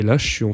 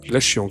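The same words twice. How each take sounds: First: The voice has a dark, muffled tone. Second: The voice has a bright, clear tone. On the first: "en sombre" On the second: "en clair"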